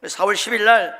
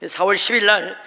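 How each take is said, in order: Both takes have the same delivery.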